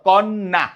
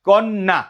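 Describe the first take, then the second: The two takes are said the same way.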